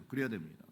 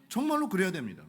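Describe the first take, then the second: First: Much softer, lower repeat; soft echo. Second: Said in the usual way. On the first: Shown as a demonstration. Preacher softly echoing his own point to the church. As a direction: let the repeat sink to a hush.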